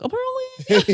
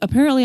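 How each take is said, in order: First: It is said imitating a small boy's cadence. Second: It is said in an ordinary adult voice. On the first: "I cannot help but talk in that voice" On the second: "if somebody on the news is like"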